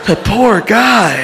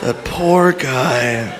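First: Higher, slow lament; acted shocked pity. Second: Very slow, lower murmur of sympathy; subdued mock pity. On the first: Witness pities man who killed himself, slow higher lament. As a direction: draw it out in mock pity. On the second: Comic mourns the imagined man, slow subdued mock pity. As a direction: let it sink, long and low. Pity repeated after audience laughs.

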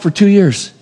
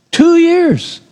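First: Said in the usual way. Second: "Two years" pitched very high, then falling; emphatic repetition. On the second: Real, not acted. Preacher marvelling at Joseph's long wait in prison, "Two years" high and emphatic. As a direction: punch "Two years" high and let it drop.

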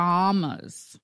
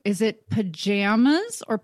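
First: Pajamas with a broad a, pa-JAH-mas; pajamas other way. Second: Pajamas with a flat a, pa-JAM-as; pajamas one way. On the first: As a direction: say pajamas with the a of father. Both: Shown as a demonstration. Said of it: "Is it pajamas or pajamas".

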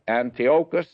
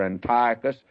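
First: Antiochus said as an-tee-OH-kus; alternative pronunciation. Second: Antiochus said as an-TIE-uh-kus; alternative pronunciation. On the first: Teacher unsure of the name, Antiochus as an-tee-OH-kus. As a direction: say Antiochus with a stressed long OH. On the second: Teacher offering another version, Antiochus as an-TIE-uh-kus. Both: Shown as a demonstration. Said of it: "however you pronounce this".

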